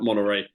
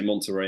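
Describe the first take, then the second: First: It is said the American way. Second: It is said the British way.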